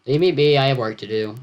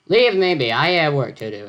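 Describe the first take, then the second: First: Said in the usual way. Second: English yell. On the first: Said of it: "I'm not gonna yell this". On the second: Acted. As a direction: yell it like an Englishman shooing someone off. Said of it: "Edgar yelled".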